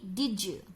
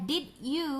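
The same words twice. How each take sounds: First: The d and y merge into a j sound. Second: The d and y sounds stay separate.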